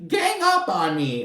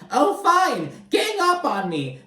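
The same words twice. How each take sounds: First: Higher, trailing sulky echo; toned-down mocking repeat; milder mock whine. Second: Much higher, sulky mock whine; hammed-up poor-me whine; mocking whiny Tamara. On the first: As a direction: repeat it as a fading pouty whine. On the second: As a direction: squeak it out like a sulking child. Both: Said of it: "And Tamara's like".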